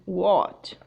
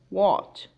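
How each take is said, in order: The two takes are said the same way.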